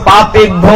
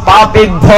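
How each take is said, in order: The two takes are said the same way.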